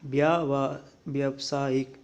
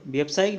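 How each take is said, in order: First: Long "byaa" before व्यावसायिक; correct form. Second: व्यावसायिक clipped to byap-saa-ik; short first vowel in व्यावसायिक; wrong form. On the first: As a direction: sound out व्यावा-, व्यावसायिक in pieces. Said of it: "यह आता है इसमें". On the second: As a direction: run the opening of व्यावसायिक together. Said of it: "नहीं होता". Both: Shown as a demonstration.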